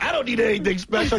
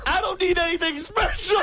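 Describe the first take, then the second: First: Light, jokey retelling; a touch of mock indignation; joking tone. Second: Mock-offended shout; indignant yell. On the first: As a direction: toss it off like a joke. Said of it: "So he's like". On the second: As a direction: yell it like you're insulted. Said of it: "So Beetle goes".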